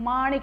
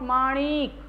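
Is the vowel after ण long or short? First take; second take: short; long. First: The vowel after ण is short. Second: The vowel after ण is long. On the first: The speaker calls it right. "अण पे जो छोटी की मात्रा है इसका pronunciation माणिक" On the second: The speaker calls it wrong. "Not"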